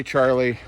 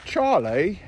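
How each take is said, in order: First: Said in the usual way. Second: "Charlie" in a British accent, pitched higher with a rising end; playful British accent on the cat's name. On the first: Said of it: "when we say Charlie". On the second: Shown as a demonstration. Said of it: "English accent".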